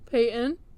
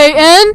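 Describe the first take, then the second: First: It is said at normal volume. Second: It is shouted very loudly.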